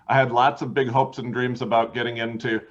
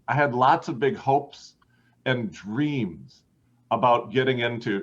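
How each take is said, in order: First: Hopes and dreams are said short and quick. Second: Hopes and dreams are drawn out longer. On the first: The speaker calls it wrong. "dreams was like a tiny short word in the middle of that sentence" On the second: The speaker calls it right. "We're just going to lengthen hopes and dreams longer, not louder, just longer"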